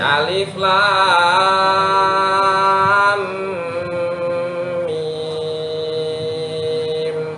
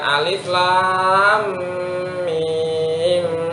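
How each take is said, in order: First: The vowels are drawn out very long. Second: The vowels are cut noticeably short. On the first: The speaker calls it right. "Kayak tadi alif lam mim" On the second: The speaker calls it wrong. "Bukan alif lam mim. Bukan. ... mesti dipotong jadi dua atau empat. Nggak boleh"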